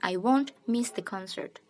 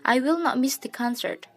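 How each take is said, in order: First: Will not is contracted into one syllable, won't. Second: Will not is said as two full words. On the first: This is the casual form used in conversation. "Kalau won't itu lebih ketika kita bercakap-cakap langsung" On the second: This is the formal form used in writing. "kalau will not itu biasanya bahasa tulisan"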